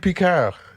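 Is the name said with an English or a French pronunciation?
French. The name is said with a French pronunciation. The speaker calls it right. "It would be Picard"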